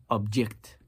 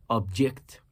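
No difference in how they are said.

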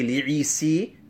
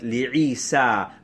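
First: The ending of the name is changed. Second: The name keeps its plain unchanged ending. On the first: The speaker calls it wrong. "So we do not say" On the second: The speaker calls it right.

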